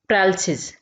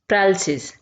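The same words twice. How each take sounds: No difference in how they are said.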